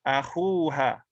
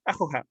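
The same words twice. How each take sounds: First: Akhuha with khu held long; long-vowel form. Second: Akhuha quick, with a short u; short-vowel form. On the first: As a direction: stretch the oo in akhuha. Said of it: "but with a letter". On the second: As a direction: say Akhuha without stretching khu. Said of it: "to pronounce it without that would be difficult". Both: Shown as a demonstration.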